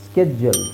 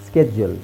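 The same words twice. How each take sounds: The two takes are said the same way.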